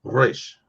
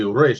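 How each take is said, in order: First: "Resh" with the R rolled on the tongue. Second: "Resh" with a plain English R; unrolled R. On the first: Showing how Hebrew should sound, rolled "Resh". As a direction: roll the R at the start of "Resh". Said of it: "you gotta roll the R". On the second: Mimicking people who say Hebrew wrong, unrolled "Resh". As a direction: say "Resh" without rolling the R. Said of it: "they don't roll the R". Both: Shown as a demonstration.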